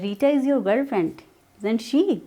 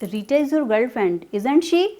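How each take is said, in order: First: The voice falls at the end. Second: The voice rises at the end. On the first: The speaker is sure of the answer. "Falling intonation में हमारा sense change हो जाता है" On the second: The speaker does not know the answer. "यहाँ पे वो एक question बन गया है, ये स्पीकर को नहीं पता है इसका आंसर"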